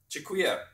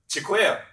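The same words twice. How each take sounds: First: The word is said at normal volume. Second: The word is said more loudly.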